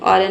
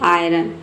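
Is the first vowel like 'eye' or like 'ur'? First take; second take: ur; eye. First: The first vowel is a short 'ur' sound. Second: The first vowel is an 'eye' sound. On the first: The speaker calls it wrong. "आयरन नहीं" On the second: The speaker calls it right. "इसे पढ़ेंगे आयरन"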